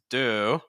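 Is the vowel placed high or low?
low. The vowel has a lower placement. "lower um, placement and things like that again would be more standard"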